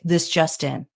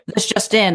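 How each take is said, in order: First: It is said slowly, in a calm way. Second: It is said quickly, with a brisk pace. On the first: This is how news anchors speak today. "ours is very calm" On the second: This is how news anchors of the older era spoke. "theirs is more fast paced"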